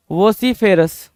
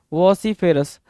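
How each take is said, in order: Both takes have the same delivery.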